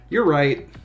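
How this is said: It is said in a casual, offhand way. The speaker calls it wrong.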